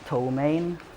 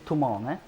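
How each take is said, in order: First: The name is said with an English pronunciation. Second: The name is said with a Swedish pronunciation. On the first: "the English one is" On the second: "the Swedish pronuncia- pronunciation is"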